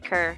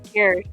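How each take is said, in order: First: The syllable has an 'er' vowel, like cur. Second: The syllable has a 'yoor' vowel, like cure. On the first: The speaker calls it right. "just cur" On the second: The speaker calls it wrong. "Not not cure"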